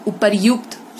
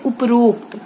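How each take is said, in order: First: Said in the usual way. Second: उपरोक्त said with "ro", "uprokt"; wrong form. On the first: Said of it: "सही है". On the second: Shown as a demonstration. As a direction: merge उपरोक्त into "up-rokt". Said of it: "अशुद्ध हो गया".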